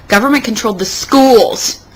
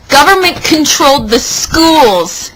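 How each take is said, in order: First: Said in the usual way. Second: "Government" punched higher and louder, slower; added emphasis. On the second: Acted. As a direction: lean hard on "Government controlled the schools". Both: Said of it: "Emphasis added".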